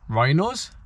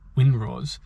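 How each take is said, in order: First: The W sound is left silent at the start. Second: The W sound is pronounced at the start. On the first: The speaker calls it right. "I should have been saying Rhinos, like not pronouncing the W" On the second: The speaker calls it wrong. "I was saying Winrose"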